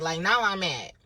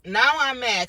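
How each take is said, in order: First: Said in the usual way. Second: Louder and higher, mock-fuming; angry burst. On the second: Retelling being accused of stealing, angry burst. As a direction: blow up on the word now.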